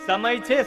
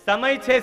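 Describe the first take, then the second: Both takes have the same delivery.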